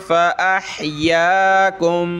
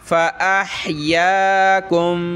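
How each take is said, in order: The two takes are said the same way.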